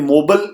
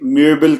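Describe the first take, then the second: First: The first vowel is a plain back o. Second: The first vowel is a fronted rounded ö. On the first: The speaker calls it wrong. "मैंने मोबल नहीं कहा" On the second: The speaker calls it right. "बल्कि म्यूबल कहा है, क्योंकि ओ के ऊपर उमलाउट है"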